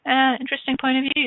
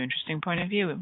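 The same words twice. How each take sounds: First: "Uh, interesting point of view" lifted high and bright, a rising "Uh"; lilting interesting point of view. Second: Settled and soft. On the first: Facilitator to listeners, a bright lifted "interesting point of view". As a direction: sing out "interesting" with a playful lift. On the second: Facilitator to listeners, calmly repeating "interesting point of view" softly. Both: Shown as a demonstration.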